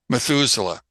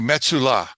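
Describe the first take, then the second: First: The name is said with English pronunciation. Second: The name is said with Hebrew pronunciation.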